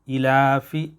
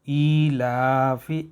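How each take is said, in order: First: The first vowel is short, not drawn out. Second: The first vowel is lengthened by one beat. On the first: The speaker calls it wrong. "इस तरीके से हमें नहीं पढ़ना है" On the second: The speaker calls it right. "एक अलिफ के बराबर खींच के पढ़ेंगे"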